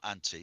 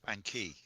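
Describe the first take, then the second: First: The middle consonant is a T sound. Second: The middle consonant is a K sound. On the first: The speaker calls it wrong. "It's not anti" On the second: The speaker calls it right. "it's the K"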